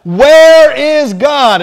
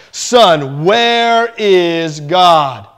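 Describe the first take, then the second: First: Much higher and louder, very slow, yelled question; hammed-up aggravated pastor yelling at the boy; big mock yell stretched out. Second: Very slow, drawn-out booming question; lightly voiced pastor, stretching every word; a hint of a heavy preacher's boom. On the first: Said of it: "and so he yelled one more time". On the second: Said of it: "in his booming voice".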